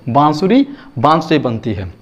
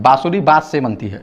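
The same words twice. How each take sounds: First: The vowels are said with nasalization. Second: The vowels are said without nasalization.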